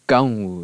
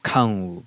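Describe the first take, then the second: First: The first consonant is unaspirated, without a puff. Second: The first consonant is aspirated, with a puff. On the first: This is the Chinese form. "a K without aspiration, K without the puff of air" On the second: This is the Japanese borrowed form. "they borrowed it as a aspirated K"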